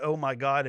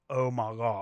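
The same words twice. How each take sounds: First: Said in the usual way. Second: "oh my God" stretched long on every vowel; drawn-out exclamation. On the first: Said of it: "It's not". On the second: Shown as a demonstration. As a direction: draw out "oh my God" as one slurred, lengthened wail of disbelief.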